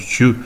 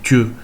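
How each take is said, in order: First: It starts with a ch sound. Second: It starts with a t sound. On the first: This is the form used elsewhere. "et chieux ailleurs" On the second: This is the form used further east. "et tieux euh, plus à l'est"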